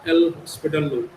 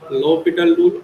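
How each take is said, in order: First: The name is said like the word hospital. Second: The name is said without an s sound.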